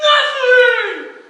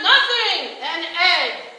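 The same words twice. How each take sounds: First: Loud, high grand "Nothing!"; showman reveal shout. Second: Loud, high copy of the trick; mock showman reveal. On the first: Retold or imitated. Performer revealing the egg trick, shouting. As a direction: announce it like a magic trick. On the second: Lenny copying the performer's trick, loud. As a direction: imitate the grand reveal.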